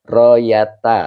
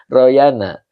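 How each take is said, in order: First: "Royata" with a clear t sound in the middle; "Royata", the corrected t version; correct reading. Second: "Royana" with an n sound in the middle; "Royana" as the earlier misreading; wrong reading. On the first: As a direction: say "Royata" with a t, not an n. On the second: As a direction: say "Royana", the mistaken n version. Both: Shown as a demonstration. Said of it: "yang benar adalah Royata".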